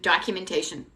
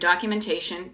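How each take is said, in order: First: It is said in a put-on Boston accent. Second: It is said in the speaker's ordinary accent.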